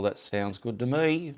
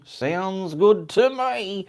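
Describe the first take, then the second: First: Said in the usual way. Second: Much higher, louder and slow, drawn out; playful sound-check voice. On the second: Shown as a demonstration. Streamer testing his mic for viewers, high drawn-out sing-song. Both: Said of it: "do a sound check".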